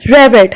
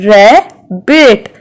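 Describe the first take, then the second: First: Said in the usual way. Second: "rabbit" slowly as ra, bit; split into syllables. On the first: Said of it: "How many vowel sounds can we hear". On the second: Shown as a demonstration. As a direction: pause between the halves of "rabbit". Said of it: "Two vowel sounds".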